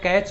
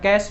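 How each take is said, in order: First: The word ends with a 'ch' sound. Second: The word ends with an 'sh' sound. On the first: "आप चाहे कैच बोलिए" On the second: "या कैश memory बोलिए"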